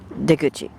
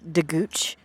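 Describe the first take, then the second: First: The word ends with a final vowel sound. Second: The word ends on a consonant, vowel dropped.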